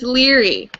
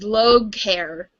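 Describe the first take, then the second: First: The name sounds like 'Leary', two syllables. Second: The name sounds like 'Logue hair', spelled-out style. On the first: The speaker calls it right. "It's Leary" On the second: The speaker calls it wrong. "I first pronounced it as as um as Logue hair"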